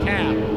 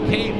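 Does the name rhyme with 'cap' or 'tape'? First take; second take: cap; tape. First: The vowel is short, rhyming with cap. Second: The vowel is long, rhyming with tape. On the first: The speaker calls it wrong. "not Cap" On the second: The speaker calls it right. "it said like Cape"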